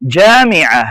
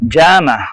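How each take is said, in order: First: It is said in Standard Arabic pronunciation. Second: It is said in Gulf dialect pronunciation. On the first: "standard அரபிக்ல" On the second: "அரபு நாட்டு பேச்சு வழக்குல கல்ஃப் டயலக்ட்ல சொல்லுவாங்க"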